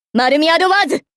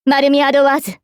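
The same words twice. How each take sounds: First: Battle cry building to the end; attack call. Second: Weapon name on a level, steady pitch; measured call of a weapon name; composed invocation. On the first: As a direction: pitch climbing through the weapon name. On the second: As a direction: intone マルミアドワーズ evenly, falling at the very end. Calm naming of the weapon. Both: Acted.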